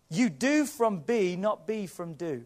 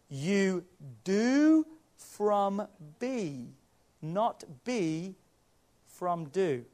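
First: It is said at normal speed. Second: It is said very slowly.

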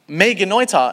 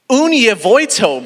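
First: It begins with an M sound, Greek-style. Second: It begins with a U sound, English-style. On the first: The speaker calls it right. "that's not how you say those letters in Greek" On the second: The speaker calls it wrong. "If these were English letters, he's completely right"

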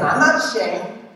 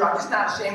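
First: It is said boastfully, puffed up. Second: It is said plainly, without boasting.

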